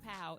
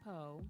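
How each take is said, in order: First: The vowel sounds like the one in cow. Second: The vowel sounds like the one in go. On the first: The speaker calls it wrong. "It's not Pow" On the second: The speaker calls it right. "it's Poe"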